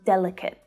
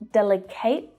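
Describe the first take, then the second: First: The final syllable has a reduced schwa sound. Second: The final syllable has a full vowel sound. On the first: The speaker calls it right. "You hear that schwa sound in the final syllable" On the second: The speaker calls it wrong. "It's not delicate"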